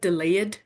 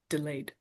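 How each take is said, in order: First: The ending is said as an extra syllable. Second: The ending is a light d sound. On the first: The speaker calls it wrong. "It's not like delayed" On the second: The speaker calls it right. "but it's like delayed. ... a very slight sound that you hear"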